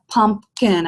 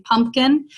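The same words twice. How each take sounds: First: "pumpkin" broken into two clear beats; syllable by syllable. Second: Said in the usual way. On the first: Shown as a demonstration. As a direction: separate both syllables of "pumpkin". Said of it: "I have two beats in that word". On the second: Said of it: "how many beats in a word".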